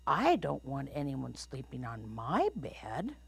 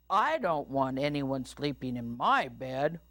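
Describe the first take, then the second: First: Lightly voiced airy mama bear; airy, lilting up at the end. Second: Lightly boomed papa bear; firm, laying down the law. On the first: Mama Bear objects about her bed, airy lilting voice. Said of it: "said Mama Bear". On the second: Papa Bear objects about his bed, lightly booming. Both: A narrator's reading.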